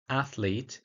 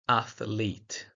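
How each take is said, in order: First: It has no extra vowel between consonants. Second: An extra vowel breaks up the consonants. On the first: "the word athlete becomes" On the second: "a vowel is sometimes inserted to break up difficult consonant clusters"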